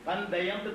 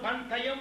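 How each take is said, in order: First: The consonant after n is a soft d. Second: The consonant after n is a hard t. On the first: The speaker calls it right. "தால் மாதிரி உச்சரிப்பான்" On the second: The speaker calls it wrong. "பன் தையம் ஒருத்தன் சொல்ல மாட்டான்"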